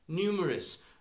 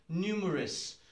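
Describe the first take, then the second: Both takes have the same delivery.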